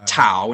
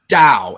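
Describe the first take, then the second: First: The word starts with a clear T sound. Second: The first sound is between T and D. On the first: The speaker calls it wrong. "It's not tau" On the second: The speaker calls it right. "you can hear both at the same time"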